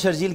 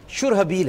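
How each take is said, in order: First: The name is said in two syllables. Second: The name is said in three syllables. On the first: The speaker calls it wrong. "इनका तलफ़ुज़ गलत है" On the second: The speaker calls it right. "असल में शुरहबील है"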